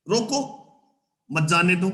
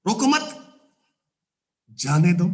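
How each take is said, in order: First: रोको set apart, a clear break, then मत जाने दो; pause after रोको. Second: रोको मत as one phrase, long break, then जाने दो; pause after मत. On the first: Teacher shows where the comma goes, pause after रोको. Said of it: "आपने कहां कॉमा लगाया". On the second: Teacher shows the misplaced comma, pause after मत. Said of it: "कहां comma नहीं लगाया". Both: Shown as a demonstration.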